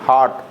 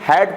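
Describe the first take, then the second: First: The vowel is a long open 'aa' sound. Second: The vowel is a short 'a' as in cat. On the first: The speaker calls it wrong. "हॉट गलत हो जाएगा हमारा" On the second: The speaker calls it right. "हैट सही रहेगा"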